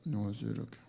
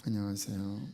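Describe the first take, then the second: First: Low, soft and clipped even colder hello; hardened greeting. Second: Low, soft, flat-hearted hello; cold greeting. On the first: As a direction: mumble it shut like a stone. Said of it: "냉랭해로 굳어버립니다". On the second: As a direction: greet as if you barely care. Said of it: "인사할 때도". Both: Retold or imitated.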